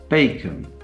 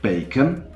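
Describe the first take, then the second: First: The second syllable is lower in pitch. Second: The second syllable is higher in pitch. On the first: It is said in a neutral way. "if you say a word in a neutral fashion, the stressed syllable, though, will be at a higher pitch" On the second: It is an answer to a question. "the second syllable, the unstressed syllable, is at a higher pitch than the first syllable"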